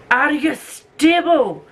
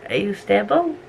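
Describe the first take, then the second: First: High, slow drawn-out question to the tripod; sing-song. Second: Said in the usual way. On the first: Acted. To the tripod on the book trolley, high slow coo.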